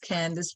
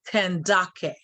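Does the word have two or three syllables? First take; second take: two; three. First: It is said with two syllables, ending softly. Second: It is said with three syllables, ending hard. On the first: This is the usual Greco-Roman form. The speaker calls it wrong. "We pronounce it as Candace" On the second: This is the original Kushite form. The speaker calls it right. "that word is to be properly pronounced as Kandake"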